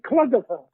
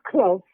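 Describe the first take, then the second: First: The name is said as three drawn-out syllables. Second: The name is said as one short syllable. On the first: Captors who could not pronounce it said it this way. The speaker calls it wrong. "they couldn't pronounce it. They used to call me Cluggerfer" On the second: This is the name's own pronunciation. The speaker calls it right. "my name is Clough"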